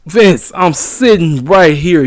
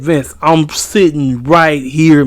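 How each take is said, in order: First: "Vince" punched first, then slow and even; same complaint, now leaning on the name "Vince"; stress on Vince. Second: Vince, I'm sitting right here, slow, leaning on "right"; retold complaint with "right" hit hardest; stress on right. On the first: Retold or imitated. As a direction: call out "Vince" hard, like getting the boss's attention. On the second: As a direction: drag it out and punch "right". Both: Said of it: "'cause he said".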